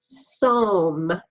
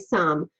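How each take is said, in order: First: It is sounded out by its letters. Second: It is said the ordinary everyday way. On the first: The speaker calls it wrong. "If we used phonics for that, that word would be some" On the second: The speaker calls it right. "We say some"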